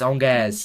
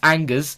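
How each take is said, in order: First: It is pronounced with a French sound. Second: It is pronounced with an anglicized English sound. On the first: "If you if you actually can pronounce a French word, it's it's Angers" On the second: "if you're British, it's Angus"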